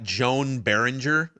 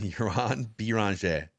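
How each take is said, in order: First: The name is said with American-style sounds. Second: The name is said with French-style sounds. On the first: The speaker calls it wrong. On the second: The speaker calls it right.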